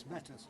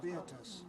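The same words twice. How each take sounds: First: "Betus" with a short e in the first syllable; first name form. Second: "Beatus" in three syllables, bee-AH-tus style; alternative pronunciation. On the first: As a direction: say "Betus" as two syllables, BET-us. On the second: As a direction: split the vowels in "Beatus": BE-a-tus. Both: Shown as a demonstration. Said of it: "Sometimes pronounced Beatus".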